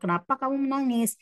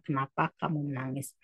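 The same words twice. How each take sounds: First: Higher, quick voiced question "Kenapa kamu menangis?"; puzzled neighbour asks Juha why he is crying. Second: Said in the usual way. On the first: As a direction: ask it in character, a little higher and quicker.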